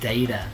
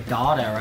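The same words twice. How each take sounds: First: The first syllable sounds like 'day'. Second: The first syllable sounds like 'dah'. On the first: "bay, ta, data" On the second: "Some people say data, right?"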